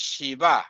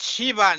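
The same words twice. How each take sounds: First: Shiva stressed on the last syllable; end-stressed Shiva; correct pronunciation. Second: Shiva stressed on the first syllable; front-stressed Shiva, weak ending; wrong pronunciation. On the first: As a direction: say Shiva as shi-VA. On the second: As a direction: say Shiva as SHEE-va. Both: Shown as a demonstration. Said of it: "no, it's Shiva".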